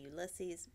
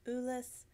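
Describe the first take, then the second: First: The name is said the English way. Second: The name is said the French way. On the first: The speaker calls it wrong. "every now and then I still say Ulysses" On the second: The speaker calls it right. "but it is Ulysse"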